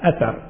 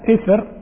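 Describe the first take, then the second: First: The word starts with 'a' and 'a' follows the second consonant. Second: The word starts with 'i' and the second consonant has no vowel. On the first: "وبفتحهما" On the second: "بكسر الهمزة وسكون التاء المثلث"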